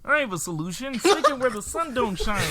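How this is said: It is said in a Kermit the Frog voice.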